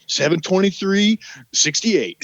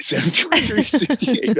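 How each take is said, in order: First: Each number said slowly and carefully; slow drilled recital. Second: Higher, laughing through the date; laughing repeat. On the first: Rehearsing the fake ID birthday with a friend, slow careful recital. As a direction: spell out the date like a drill. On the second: Repeating the fake birthday to his buddy, giggling higher. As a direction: crack up while repeating the numbers. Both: Retold or imitated.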